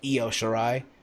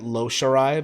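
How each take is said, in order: First: The first name starts with a vowel sound. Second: The first name starts with an L sound. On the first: The speaker calls it right. "but it's Io Shirai" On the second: The speaker calls it wrong. "apparently I mispronounced Io Shirai. I said Lo Shirai"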